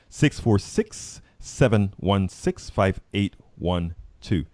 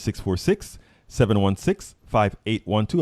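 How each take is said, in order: First: The number is read at a slow pace. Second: The number is read at a quick pace.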